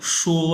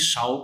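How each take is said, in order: First: The vowel is pronounced 'uo', like shuo. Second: The vowel is pronounced 'ao', like shao. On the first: The speaker calls it right. "एस एच श एन यू ओ वो शो और first tone है" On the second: The speaker calls it wrong. "बच्चे जो गलती करते हैं शाओ पढ़ लेते हैं"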